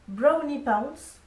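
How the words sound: It is said with an English accent.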